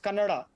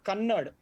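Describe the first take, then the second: First: The word ends with a final vowel sound. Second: The word ends on a consonant, no final vowel. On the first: The speaker calls it right. "it's Kannada" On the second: The speaker calls it wrong. "it's not Kannad"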